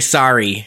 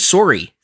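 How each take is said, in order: First: It is said with an American accent. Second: It is said with a Canadian accent. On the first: The speaker calls it right. "no, you got to say" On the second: The speaker calls it wrong. "you can't sound so Canadian. And the one that got me was"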